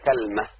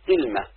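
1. تُنطق kalma، بفتحة بعد الكاف، ولا حركة بعد اللام. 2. تُنطق kilma، بكسرة بعد الكاف، ولا حركة بعد اللام. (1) "على وزن فعلة أو تمرة" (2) "بكسر الكاف، كلمة وسكون اللام على وزن سدرة"

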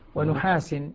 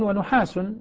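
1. تنتهي الكلمة بالصوت -in. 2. تنتهي الكلمة بالصوت -un. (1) "هذا مين؟ حق، اللي هو ابن كثير وأبو عمرو البصري" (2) "الباقون"

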